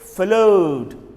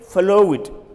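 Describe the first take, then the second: First: The word ends in a plain D sound. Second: The word ends in an extra syllable. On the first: The speaker calls it right. "You add only D" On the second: The speaker calls it wrong. "Don't say flow it"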